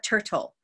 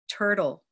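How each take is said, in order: First: The second T has a puff of air. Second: The second T sounds soft, like a d. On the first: The speaker calls it wrong. "It's not turtle" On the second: The speaker calls it right. "it behaves more like a d"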